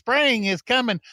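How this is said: It sounds light, cheerful and happy.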